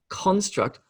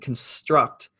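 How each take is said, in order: First: The stress is on the first syllable. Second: The stress is on the second syllable. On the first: It is used as a noun. "the emphasis shifts to the first syllable" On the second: It is used as a verb. "where the emphasis or the stress is on the second syllable"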